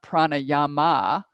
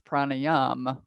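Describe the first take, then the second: First: The word ends with a long 'ah' vowel. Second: The word ends on the 'm' sound. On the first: The speaker calls it wrong. "It's not pranayama" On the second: The speaker calls it right. "it's pranayam. There's a m at the m"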